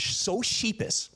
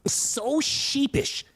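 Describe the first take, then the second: First: Said in the usual way. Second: SO SHEEPISH drawn out slowly and higher; emphatic repeat. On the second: Real, not acted. Comedian insists the man was so sheepish, emphatic.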